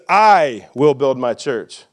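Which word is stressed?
I. The stress is on "I".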